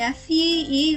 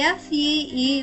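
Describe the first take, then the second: Both takes have the same delivery.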